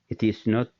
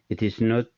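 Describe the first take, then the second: Both takes have the same delivery.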